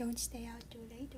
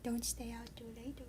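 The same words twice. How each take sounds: First: It sounds suggestive and flirtatious. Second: It sounds suggestive and flirtatious.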